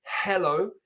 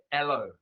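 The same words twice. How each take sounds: First: Said in the usual way. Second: Hello with no H, ello; dropped H. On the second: Shown as a demonstration. Teacher demoing a Cockney hello with the H dropped.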